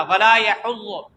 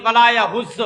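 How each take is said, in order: First: Slow "ولا یحض" with throaty h and heavy daad; correct pronunciation. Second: "ولا یحض" with plain h and z in place of daad; common mispronunciation. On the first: Shown as a demonstration. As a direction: give both letters in "یحض" fully. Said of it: "واضح طور پہ پڑھتے ہیں". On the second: Retold or imitated. Teacher copies readers who lose two letters, "یحض" mispronounced. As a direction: imitate the careless "یحض". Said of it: "ہا تو گئی".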